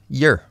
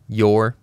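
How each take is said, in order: First: The word is said in a reduced form. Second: The word is said in its full form.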